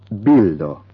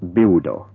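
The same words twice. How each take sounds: First: The L is clear and light. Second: The L is dark and vowel-like. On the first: The speaker calls it right. "It should have a nice clear L" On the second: The speaker calls it wrong. "not become bildo"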